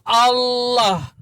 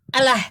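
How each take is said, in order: First: It is said with an Arabic pronunciation. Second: It is said with a plain Indonesian-style pronunciation. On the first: It names God. The speaker calls it right. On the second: It means a curse. The speaker calls it wrong. "sumpah serapah itu"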